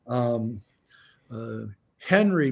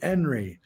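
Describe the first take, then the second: First: The word begins with an h sound. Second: The word begins without an h sound.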